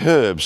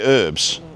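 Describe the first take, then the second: First: The word begins with an audible h sound. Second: The word begins with no h sound. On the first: This is the English way of saying it. The speaker calls it right. "English people say herbs" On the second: This is the American way of saying it. The speaker calls it wrong. "Americans say herbs"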